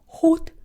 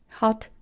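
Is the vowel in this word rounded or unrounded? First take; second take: rounded; unrounded. First: The vowel is a rounded back O sound. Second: The vowel is an unrounded open A sound. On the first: "In Britain, words like hot, stop, cloth are all pronounced with O sound" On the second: "In America, they are all pronounced with A sound"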